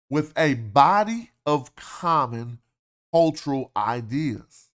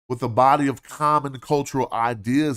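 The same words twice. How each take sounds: First: The phrase is read slowly. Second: The phrase is read quickly.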